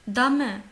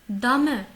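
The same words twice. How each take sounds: The two takes are said the same way.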